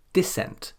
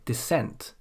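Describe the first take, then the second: First: "dissent" as DISS-ent, high on DISS; stress on first syllable. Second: "dissent" as di-SSENT; stress on second syllable. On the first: Teacher shows the rule's wrong result, stress on DISS. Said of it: "with the usual rule, we would say". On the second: Teacher gives the correct noun, stress on SENT. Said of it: "the second syllable and not the first". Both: Shown as a demonstration.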